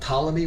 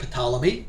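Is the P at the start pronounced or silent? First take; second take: silent; pronounced. First: The word begins with a plain T sound. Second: The word begins with a sounded P before T. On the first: The speaker calls it right. "with a silent P" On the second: The speaker calls it wrong. "not Ptolemy"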